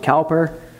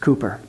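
First: The first vowel sounds like 'cow'. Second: The first vowel sounds like 'coo'. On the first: The speaker calls it wrong. "Some people pronounce it Cowper" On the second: The speaker calls it right. "It's Cooper"

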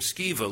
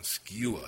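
First: The name is said with a 'v' sound. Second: The name is said with a 'u' sound.

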